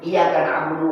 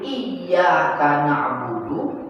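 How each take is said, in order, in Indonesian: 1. Bunyi y dibaca pendek dan tunggal. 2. Bunyi y dibaca ganda dan ditahan. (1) "Tapi kalau tanpa tasdid" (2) "Kalau pakai tasdid"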